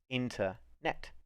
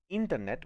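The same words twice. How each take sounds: First: The word is pronounced the English way. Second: The word is pronounced the Spanish way. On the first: "this word in English has actually got two morphemes" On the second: "Whereas in Spanish"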